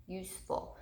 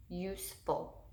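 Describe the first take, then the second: First: Said in the usual way. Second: "useful" parted into USE and ful; syllable break. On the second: Shown as a demonstration. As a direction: leave a small gap after "use" in "useful". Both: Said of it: "we have that syllable break".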